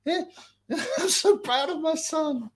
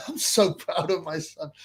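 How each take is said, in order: First: High mock pride. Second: Said in the usual way. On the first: The dad about his son, high mock pride.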